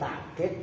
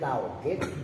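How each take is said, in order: First: A glottal catch follows the first vowel. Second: A w glide follows the first vowel. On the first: "kalau ini hamzah" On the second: "Pakai wau maksudnya"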